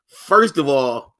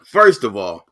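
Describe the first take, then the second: First: "first of all" stretched out slow and punched; slow emphatic first of all. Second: Said in the usual way. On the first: Shown as a demonstration. Host restating his point with a slow, emphatic first of all. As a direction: lay down "first of all" slowly, each word weighted.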